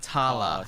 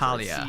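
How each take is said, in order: First: The name is said with two syllables. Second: The name is said with three syllables. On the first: The speaker calls it right. "It's Grandma Tala" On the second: The speaker calls it wrong. "not Talia"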